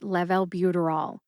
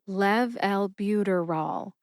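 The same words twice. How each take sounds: First: The word is said at a normal conversational speed. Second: The word is said slowly, syllable by syllable. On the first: "at a conversational pace" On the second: "when I say it slowly"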